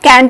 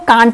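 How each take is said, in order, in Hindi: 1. यह स्वर छोटी सपाट 'a' ध्वनि है। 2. यह स्वर लंबी खुली 'ah' ध्वनि है। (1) "और कैंट भी बोलते हैं" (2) "इस कैंट को कांट भी बोलते हैं"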